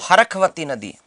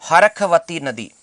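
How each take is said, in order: The two takes are said the same way.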